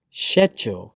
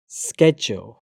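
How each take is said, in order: First: "schedule" starting with "sh": SHED-jool; British pronunciation. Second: "schedule" starting with "sk": SKED-jool; American pronunciation. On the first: Teacher reading the British form of each pair, British pronunciation. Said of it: "I'm a British English native speaker". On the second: Teacher trying the American form, American pronunciation. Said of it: "my American pronunciation". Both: Shown as a demonstration.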